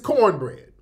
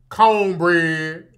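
First: The word is said in a plain, everyday way. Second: The word is said in an exaggerated, forced accent. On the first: This is how people really say it. The speaker calls it right. "It's cornbread, even in the South" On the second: It sounds fake and put on. The speaker calls it wrong. "Don't nobody pronounce it cornbread. That's cap"

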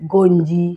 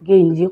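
First: The first vowel is an O sound. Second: The first vowel is an E sound. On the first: This is how locals say it. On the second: This is the standard form, not the local one.

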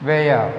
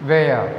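Both takes have the same delivery.

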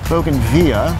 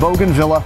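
First: The word is said in a fancy, refined way. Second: The word is said in a plain, ordinary way.

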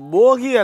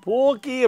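First: The middle consonant is short and single. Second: The middle consonant is doubled and held. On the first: The speaker calls it wrong. "இது போகி அல்ல" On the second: The speaker calls it right. "போக்கி அப்படின்னு சொல்லணும்"

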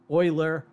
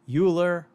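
First: The name is pronounced the way it is said in its own language. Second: The name is pronounced as if it were an English word. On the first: The speaker calls it right. "someone would rightly correct me and say that the pronunciations should be more like" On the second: The speaker calls it wrong. "If I were to say"

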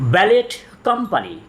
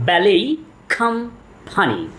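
First: Ballet ends with a t sound. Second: Ballet ends with no t sound. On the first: The speaker calls it wrong. "এটার সঠিক উচ্চারণ ব্যালেট company না" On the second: The speaker calls it right. "এটির সঠিক উচ্চারণ হলো ব্যালেই company"

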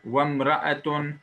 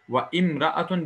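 First: The words run together, dropping the initial vowel. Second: The second word keeps its initial vowel sound. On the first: The speaker calls it right. "Bakınız elif düşüyor okunuşta" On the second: The speaker calls it wrong. "ve imraetun diyemeyiz. Yanlıştır"

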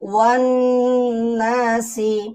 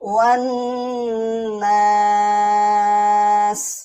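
First: The word ends with a short final vowel. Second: The word ends on a bare consonant. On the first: The reading continues without stopping. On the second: The reading stops at this word.

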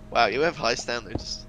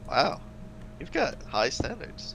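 First: The tone sounds flat and insincere. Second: The tone sounds warm and sincere. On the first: The compliment is not really meant. The speaker calls it wrong. "That didn't sound even at all sincere" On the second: The compliment is meant. The speaker calls it right. "That sounded really sincere"

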